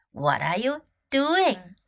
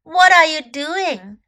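First: Said in the usual way. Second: Called out question. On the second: Shown as a demonstration.

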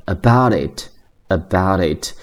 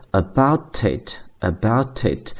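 First: "about it" linked as abou-dit; slow demo of "about it" with flapped t; American flap t. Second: "about it" linked as abou-tit, crisp t; slow demo of "about it" with t kept; linked with true t. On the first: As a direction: soften the t in "about it" to a quick d. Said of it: "都会发成的，所以是". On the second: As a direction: carry a clear t into "it" in "about it". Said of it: "就会自然地连在一起". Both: Shown as a demonstration.

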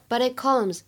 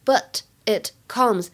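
First: "But it comes" run together, flapped first t, second t held unreleased; linked, unreleased stop. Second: "but it comes" word by word, with gaps; separate words. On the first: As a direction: link "But it comes" like "buddi(t) comes". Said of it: "又有一个完全失去爆破的现象". (“But it comes”连读，it的t失去爆破) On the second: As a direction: say "but", "it", "comes" slowly and apart. Gives the three words one by one. (“but it comes”逐词分开慢读) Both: Shown as a demonstration.

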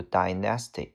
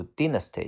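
First: Dynasty with a long i, DYE-nuh-stee; second pronunciation. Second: Dynasty with a short i, DIN-uh-stee; first pronunciation. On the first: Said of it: "也可以读dynasty". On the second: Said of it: "这个单词可以读dynasty". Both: Shown as a demonstration.

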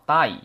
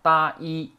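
First: Said in the usual way. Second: 大衣 drawn out as two separate sounds, "ta... i"; syllable by syllable. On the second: Shown as a demonstration. Teacher spelling out the reading of 台, syllable by syllable. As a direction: break 大衣 slowly into ta and i. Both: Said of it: "这个台呢读成大衣".

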